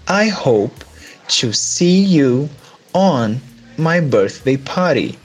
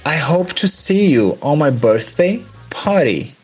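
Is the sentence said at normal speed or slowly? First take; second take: slowly; normal speed. First: It is said more slowly. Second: It is said at normal speed.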